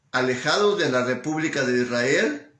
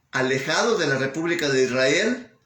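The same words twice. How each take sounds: Both takes have the same delivery.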